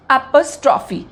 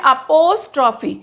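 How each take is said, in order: First: अपॉस्ट्रॉफी with an open ॉ, the correct way; अपॉस्ट्रॉफी pronounced carefully and correctly, with a final fall; correct pronunciation. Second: अपोस्ट्रॉफी said with a long o, the way many wrongly say it; अपोस्ट्रॉफी with a full o sound, the mistaken version; wrong pronunciation. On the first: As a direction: say अपॉस्ट्रॉफी with the open ॉ and a falling close. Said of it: "इसका सही pronunciation क्या है?". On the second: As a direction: say अपोस्ट्रॉफी with o in the second syllable, as a common error. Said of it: "कई लोग बोलते हैं अपोस्ट्रॉफी". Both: Shown as a demonstration.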